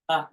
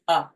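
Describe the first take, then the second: First: It is said as a short uh. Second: It is said as a short uh.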